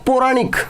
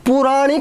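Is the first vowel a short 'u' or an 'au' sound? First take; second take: au; short u. First: The first vowel is an 'au' sound. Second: The first vowel is a short 'u' sound. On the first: The speaker calls it right. "ये होता है पौराणिक" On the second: The speaker calls it wrong. "पुराणिक नहीं होता"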